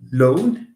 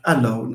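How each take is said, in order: First: The first vowel is a weak, reduced schwa. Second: The first vowel is a full, unreduced vowel. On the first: The speaker calls it right. "So we say ah, alone" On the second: The speaker calls it wrong. "We never produce a word like alone"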